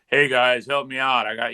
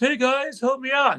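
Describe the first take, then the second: First: It is said in a deeper, adult voice. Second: It is said in a high, youthful voice.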